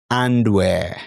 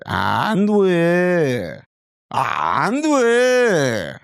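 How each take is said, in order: First: Said in the usual way. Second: High, sung "And where" falling down; Korean intonation. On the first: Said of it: "Doesn't sound right". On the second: Shown as a demonstration. Tutor contrasting English and Korean intonation, high sung. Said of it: "Can you hear the difference becoming Korean?".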